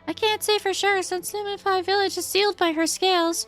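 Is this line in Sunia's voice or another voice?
Sunia's voice. It is said in Sunia's character voice.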